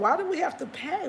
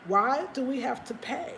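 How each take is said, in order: First: WE pitched higher, rising indignant question; indignant stress on we. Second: Said in the usual way. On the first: Real, not acted. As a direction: lean hard on the word we in protest. Repeats the protest.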